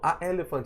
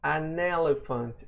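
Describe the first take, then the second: First: The article has no n before elephant. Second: An n sound links the article to elephant. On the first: The speaker calls it wrong. "Então a elephant fica. Uh, uh, uh" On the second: The speaker calls it right. "Então an elephant"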